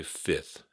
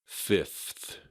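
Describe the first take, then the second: First: Fifth said as "fith"; simplified pronunciation. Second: Fifth with both F and TH sounded; fifth, every consonant articulated; fully pronounced F. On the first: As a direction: skip the middle F in fifth. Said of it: "Just say fifth and you're good". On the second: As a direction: sound out the middle F in fifth before the TH. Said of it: "You don't have to try to pronounce it". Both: Shown as a demonstration.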